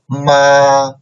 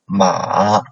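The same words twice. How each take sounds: First: The pitch stays high and level. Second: The pitch dips low, then rises.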